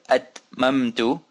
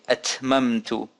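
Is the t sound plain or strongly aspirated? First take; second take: plain; aspirated. First: The t is said plainly, without a burst of breath. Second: The t is said with a strong burst of breath. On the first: "Instead of atmamtu" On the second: "some people put a little bit more force on the ta... like they're spitting their breath out"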